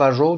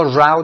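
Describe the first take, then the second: First: "رو" with a long O, like go; row rhyming with go. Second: "راو" with an OW vowel, like cow; row rhyming with cow. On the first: Teacher recalling an earlier homograph, "رو" rhyming with go. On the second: Teacher recalling an earlier homograph, "راو" rhyming with cow. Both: Shown as a demonstration. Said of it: "به همین شکل ما راو داشتیم".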